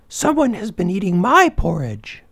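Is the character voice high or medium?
medium. A medium-pitched voice says it. The middle-sized bear is speaking. "in her medium-sized voice"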